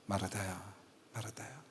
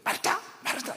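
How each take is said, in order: First: It is called in a gentle, tender tone. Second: It is called in a stern, scolding tone.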